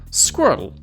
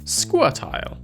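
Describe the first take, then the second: First: The final syllable is a short 'ul' sound. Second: The final syllable has a full 'ile' sound. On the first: "In America" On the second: "In Britain"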